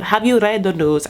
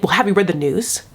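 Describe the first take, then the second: First: Half-hearted attempt at a Russian accent; badly faked Russian accent with reworked vowels; botched Russian accent. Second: Said in the usual way. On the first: Girlfriend asking whether he's seen the news, badly faked Russian accent. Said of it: "I can't do, like, a Russian accent". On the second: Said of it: "I can't do an accent".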